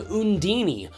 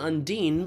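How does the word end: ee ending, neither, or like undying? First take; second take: ee ending; neither. First: It ends with an extra ee sound. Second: It is said with its usual, established pronunciation.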